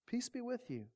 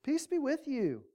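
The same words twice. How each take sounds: First: A much softer second peace be with you; hushed repeat. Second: Said in the usual way. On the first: Acted. Jesus calming his frightened friends, hushed and gentle. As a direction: let it fall to a hush. Jesus greets troubled disciples.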